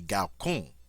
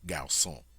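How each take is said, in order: First: The c is said as a hard k sound. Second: The c is said as a soft s sound. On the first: "should have a hard sound" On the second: "let's pronounce it soft"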